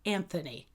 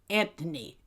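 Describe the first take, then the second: First: The 'th' sound is clearly pronounced. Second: The 'th' sound is replaced by a plain 't'.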